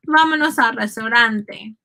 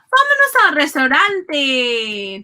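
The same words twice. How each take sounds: First: Said in the usual way. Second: Raised, drawn-out cheer to get going; lively call. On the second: Shown as a demonstration. Teacher acts out leaving the taxi for the restaurant, lively call. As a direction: call it out slowly and eagerly.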